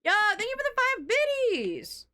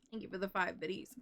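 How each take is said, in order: First: High, silly put-on thank-you; squeaky goofy voice thanking. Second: Said in the usual way. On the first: Thanking a viewer twice.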